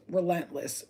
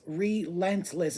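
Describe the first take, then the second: First: Said in the usual way. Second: RELENTLESS slowly stretched, syllable by syllable; emphatic repeat. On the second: Real, not acted. Reader hammering home the warriors' nature, RELENTLESS slow and emphatic. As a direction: draw out each syllable of RELENTLESS.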